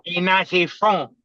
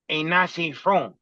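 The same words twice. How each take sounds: First: Slow, higher imitated Spanish accent on "Ain't nothing from". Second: Slow mock Spanish accent, "ain't nothing from" drawn out. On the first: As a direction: repeat the accented line slower and a bit higher. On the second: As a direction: imitate the Spanish-accented guy insisting, slowly. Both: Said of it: "he had a heavy Spanish accent".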